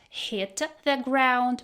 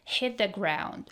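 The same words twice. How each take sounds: First: The t in hit is clearly released. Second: The t in hit is a glottal stop. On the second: "She said hit with a glottal stop"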